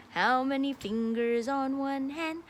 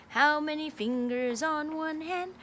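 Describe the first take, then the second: No difference in how they are said.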